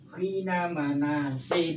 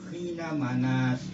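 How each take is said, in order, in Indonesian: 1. Frasa itu berakhir dengan -in. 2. Frasa itu berakhir tanpa -in. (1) "harus dibaca loh khina manasin" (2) "jangan dibaca khina manas, salah"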